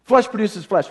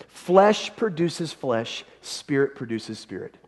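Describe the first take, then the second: First: Said in the usual way. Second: "Flesh produces flesh" drawn out very slowly, each word weighed; slow scripture reading. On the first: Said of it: "look at verse six". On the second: Shown as a demonstration. Pastor reading the verse to the congregation, slow and weighty. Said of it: "listen, look at verse six".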